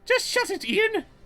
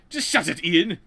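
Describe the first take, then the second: First: It is said in another character's voice. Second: It is said in Omar's voice.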